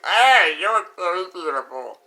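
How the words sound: It is said in an exaggerated flirtatious way.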